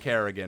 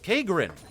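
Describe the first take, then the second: First: The name is said with an added R sound. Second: The name is said without an R sound. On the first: The speaker calls it wrong. "I threw an R in there that, that was not there" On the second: The speaker calls it right. "you said, it's Kagrin"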